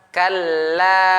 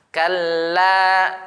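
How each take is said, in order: No difference in how they are said.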